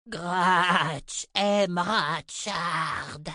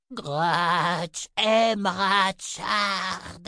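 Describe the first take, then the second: First: Very slow, strange creature voice dragging out aime; growling creature. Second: Very slow, higher creature voice, aime drawn out clearly; creature repeating. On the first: The garne telling the girl it loves Richard, slow creature growl. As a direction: drag each word like a beast learning speech. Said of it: "grogna-t-il". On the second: The garne repeating itself to the girl, slow clear creature voice. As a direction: repeat it slowly so every word is understood. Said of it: "répéta l'étrange créature". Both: A narrator's reading.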